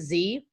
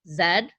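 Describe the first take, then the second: First: The letter is said a non-Canadian way. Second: The letter is said the Canadian way. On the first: "We don't pronounce it Z" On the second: "we call it Z in Canada"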